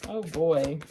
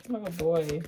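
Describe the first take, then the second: No difference in how they are said.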